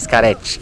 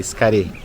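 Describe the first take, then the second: First: The name ends with a 'ch' sound. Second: The name ends without a 'ch' sound. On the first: The speaker calls it wrong. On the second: The speaker calls it right.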